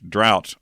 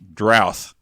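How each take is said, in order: First: The word ends with a plain t sound. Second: The word ends with a th sound.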